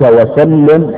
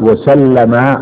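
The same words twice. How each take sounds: First: وسلم as "wa-sallim", with i after the doubled l; doubled lam in وسلم, closed -lim ending; kasra on the lam. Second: وسلم as "wa-sallama", with a after the doubled l; doubled lam in وسلم, open -ma ending; fatha on the lam. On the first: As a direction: pronounce وسلم as a prayer, wa-SAL-lim. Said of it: "أو بكسرها مع التضعيف". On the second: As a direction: pronounce وسلم in the past tense, wa-SAL-la-ma. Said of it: "بفتح اللام مع التضعيف". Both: Shown as a demonstration.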